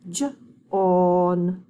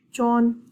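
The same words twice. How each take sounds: First: "J-on" split into its sounds; segmented sounding out. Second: Said in the usual way. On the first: Shown as a demonstration. Teacher sounding out "J-on" with the class. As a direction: sound out "J-on" slowly, sound by sound. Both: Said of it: "say it with me".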